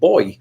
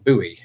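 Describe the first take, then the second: First: It sounds like boy, one syllable. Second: It sounds like boo-ee, two syllables. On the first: This is how it is said in the speaker's own country. "we simply pronounce it boy, like the the gendered child" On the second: This is how Americans say it. "I understand that you would pronounce it buoy"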